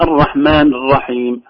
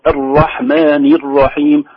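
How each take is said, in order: First: "الرحمن" ending on a bare n; missing kasra. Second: "الرحمن" ending in "ni"; clear kasra. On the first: Teacher showing the wrong reading, "rahman" without its final vowel. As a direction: slowly say "الرحمن الرحيم" with no linking i. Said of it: "وليست". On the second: Teacher giving the correct vowel, "ar-rahmani r-rahim". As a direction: slowly join "الرحمن الرحيم" with a sounded i. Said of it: "وكذلك مثلها". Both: Shown as a demonstration.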